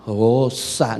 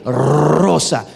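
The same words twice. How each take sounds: First: Rosa said low, with a soft English r and no trill, as an American would; gringo rosa. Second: Rosa with a strong trilled Spanish r at the start; rolled r. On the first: Retold or imitated. Preacher mimics an American struggling with Spanish, Rosa with a soft English r. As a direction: imitate an American who cannot roll the r in Rosa. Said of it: "de hacer que un bolillo diga rosa". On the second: Shown as a demonstration. Preacher shows the congregation the right way, Rosa with a trilled r. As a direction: roll the r hard in Rosa. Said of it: "con R".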